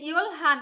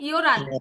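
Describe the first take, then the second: First: The l and h sounds are both clearly said. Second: The h drops and it flows as yeoran. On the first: The speaker calls it wrong. "উচ্চারণ ইয়োল হান হবে না" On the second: The speaker calls it right. "উচ্চারণ কি হবে?"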